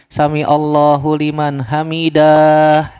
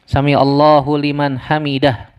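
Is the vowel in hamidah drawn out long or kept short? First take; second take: long; short. First: The vowel in hamidah is drawn out long. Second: The vowel in hamidah is kept short. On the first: The speaker calls it wrong. "Dipanjangin hamidah" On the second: The speaker calls it right.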